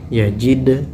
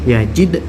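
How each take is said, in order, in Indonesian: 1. Huruf d terakhir dipanjangkan, bukan dipantulkan. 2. Huruf d terakhir dipantulkan dengan cepat. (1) "tak boleh" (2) "Dipantulkan dengan cepat"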